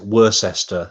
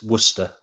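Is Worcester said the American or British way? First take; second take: American; British. First: It is said in an American way. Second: It is said in a British way. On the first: This is how it is said in the United States. "They pronounce it Worcester, I think, in Massachusetts" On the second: This is how it is said in England. "Over here, yeah, it's Worcester"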